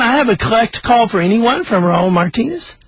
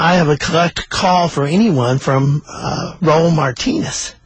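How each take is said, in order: First: Higher-pitched repeated operator announcement; insistent operator asking for an answer; operator repeating. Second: Halting first call announcement, pitched near usual; operator. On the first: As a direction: repeat the call request, voice lifted at the end. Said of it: "the operator said again". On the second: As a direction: state the collect call evenly. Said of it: "the operator said". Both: Retold or imitated.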